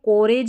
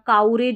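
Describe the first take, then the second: First: The first vowel sounds like o in go. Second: The first vowel sounds like ow in cow. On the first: "इसको कोरेज नहीं पढ़ना" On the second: "काउरेज भी नहीं पढ़ना"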